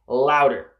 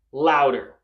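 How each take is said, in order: Both takes have the same delivery.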